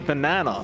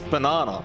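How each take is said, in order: First: The word is said with an American pronunciation. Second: The word is said with an Australian pronunciation. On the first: "the Americans might say banana" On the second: "in Australia, we pronounce banana as banana"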